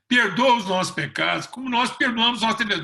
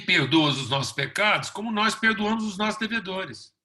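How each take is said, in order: First: The line sounds begging and unsure of itself. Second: The line sounds calm and sure of itself. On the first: The prayer voices a hopeful expectation. The speaker calls it wrong. "Mas não" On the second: The prayer affirms an existing relationship. The speaker calls it right. "a oração tem que ser para afirmar uma relação"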